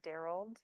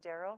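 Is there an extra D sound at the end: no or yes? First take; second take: yes; no. First: The name ends with an added D sound. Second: The name ends without an extra D sound. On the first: This is how the child mispronounced it. "She put the D at the end of that word" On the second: This is the usual pronunciation. "She had a friend named Daryl"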